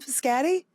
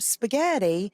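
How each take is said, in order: First: The word is said with the sounds swapped, childlike. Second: The word is said with its standard adult sounds. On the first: The adult copies the child's cute mispronunciation. The speaker calls it wrong. "we then repeat it to them that way" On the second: The adult models the correct form for the child. The speaker calls it right. "we should say it correctly"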